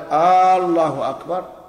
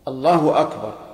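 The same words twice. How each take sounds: First: The opening vowel of Allah is lengthened. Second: No vowel is lengthened anywhere. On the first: The speaker calls it wrong. "يمد الهمزة لا في الجزء الأول منها" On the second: The speaker calls it right. "يشترط أن تكون بهذا اللفظ"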